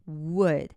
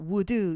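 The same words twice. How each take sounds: First: The final d is held and unreleased. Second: The final d is clearly released. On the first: The speaker calls it right. "약간 우리말의 디귿 받침같이 발음을 해요" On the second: The speaker calls it wrong. "would 이렇게 발음 안 해요"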